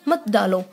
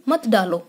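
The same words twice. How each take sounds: Both takes have the same delivery.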